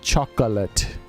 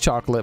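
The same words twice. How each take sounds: First: The middle vowel is pronounced, three syllables. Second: The middle vowel is dropped, two syllables. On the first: This is the technically correct form. The speaker calls it right. "but it's actually chocolate. ... You put a little uh in the middle of it" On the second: This is how most people say it. The speaker calls it wrong. "Everybody says chocolate"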